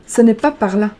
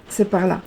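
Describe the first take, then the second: First: "pas" hit louder, marking the wrong side; wrong way, stressed. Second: Said in the usual way. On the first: Shown as a demonstration. A card reader correcting the viewers with a louder stressed "pas". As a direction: warn them it is not "par là", stressing "pas".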